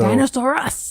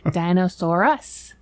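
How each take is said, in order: First: The title is said with loud, excited energy. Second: The title is said in a plain, flat way.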